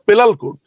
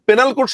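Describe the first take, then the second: First: The first word has an l sound in the middle. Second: The first word has an n sound in the middle. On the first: The speaker calls it wrong. "এই লোকটা বলতো পেলাল code" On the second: The speaker calls it right. "পেনাল code শব্দটা বলতে পারতো না"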